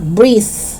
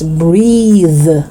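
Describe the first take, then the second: First: The final th sound is voiceless. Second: The final th sound is voiced. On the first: The speaker calls it wrong. "It's not breathe. No, that's wrong" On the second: The speaker calls it right. "the second one is voiced"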